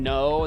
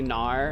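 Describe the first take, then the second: First: The word ends in a plain o sound. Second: The word ends with an r-like sound.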